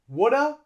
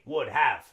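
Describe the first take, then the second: First: Have is reduced to a short 'uh' sound. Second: Have is pronounced fully as a separate word. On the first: "They would probably say woulda" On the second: "native English speakers wouldn't say would have"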